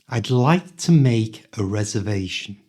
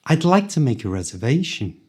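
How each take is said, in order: First: It is spoken slowly and carefully. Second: It is spoken quickly, at full speed.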